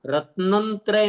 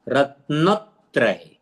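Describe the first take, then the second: First: रत्नंत्रय with an added nasal n after रत्न; wrong pronunciation. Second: रत्नत्रय slowly, stress on न, no extra n; correct pronunciation. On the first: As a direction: demo of the mistaken रत्नंत्रय. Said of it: "रत्नंत्रय नहीं करना उच्चारण". (रत्नंत्रय, गलत उच्चारण, बीच में न जोड़कर) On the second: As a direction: model रत्नत्रय slowly for students. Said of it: "न पर जोर दिया तो त्रय आपको उच्चारण करने में आसान". (सही उच्चारण रत्नत्रय, धीमे, न पर जोर) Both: Shown as a demonstration.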